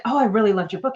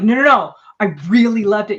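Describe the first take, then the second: First: Said in the usual way. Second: Loud protest, leaning hard on "really"; insist, punching "really" loud; insistent REALLY. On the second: Retold or imitated. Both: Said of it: "You're really intense".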